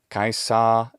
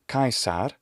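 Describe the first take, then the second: First: It ends in a vowel with no r. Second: It ends with a classical Latin r sound. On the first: "kaisa if it's British" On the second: "it's not going to be kaisar"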